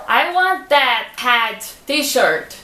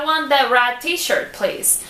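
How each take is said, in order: First: "red" said like "head"; English H sound in place of the R in "red"; mispronounced "red" asking for a shirt; wrong R as H. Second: "red" with a clear English R; slow, careful "red t-shirt"; correct English R. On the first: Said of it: "Imagina se chegar uma loja". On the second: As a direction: model the right "red" for the shop. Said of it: "Mas se você falar". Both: Shown as a demonstration.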